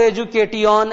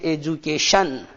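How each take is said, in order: First: The middle 'ti' is pronounced as a 't' sound. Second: The middle 'ti' is pronounced as a 'sh' sound. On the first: The speaker calls it wrong. "ऐसे नहीं बोल सकते हैं" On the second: The speaker calls it right. "टी आई को शंकर वाला ये भी बोला जाता है"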